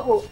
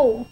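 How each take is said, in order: First: 五 as the short, lax oo of book; 五 as a short English oo; short oo sound. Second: 五 as a long, drawn-out oo; 五 as a tense, sustained English oo; long oo sound. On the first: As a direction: say 五 briefly, like the vowel in foot. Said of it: "不念作五". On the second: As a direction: stretch 五 like the vowel in room. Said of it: "它念作". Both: Shown as a demonstration.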